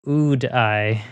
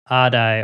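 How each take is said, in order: First: The first vowel sounds like in 'food'. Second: The first vowel sounds like in 'odd'.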